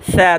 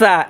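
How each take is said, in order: First: It starts with a soft th sound. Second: It starts with a hissing s sound. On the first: The speaker calls it right. "জিব্বার আগা সামনের দাঁতের আগার সাথে লাগাইয়া পাতলা আওয়াজে" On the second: The speaker calls it wrong. "সা সা এভাবে উচ্চারণ করবো না"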